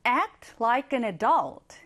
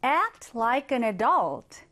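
First: Very slow, clear voiced read; slow voiced example. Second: Slow whispered read of the sentence; whispered example. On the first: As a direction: read it aloud word by word. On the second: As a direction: whisper it slowly. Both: Shown as a demonstration. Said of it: "하나 더 볼게요".

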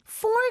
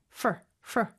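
First: "for" with its full vowel; full word form. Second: "for" as just F-R, no vowel; reduced pronunciation. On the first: Teacher giving learners the dictionary form, full-vowelled "for". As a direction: say "for" as a standalone word, vowel intact. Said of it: "단어를 얘기할 때는 for이지만". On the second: Teacher showing learners fast speech, "for" reduced to "fr". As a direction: squash "for" down to a short "fr". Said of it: "모음 소리 없이 그냥 에프알 소리만". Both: Shown as a demonstration.

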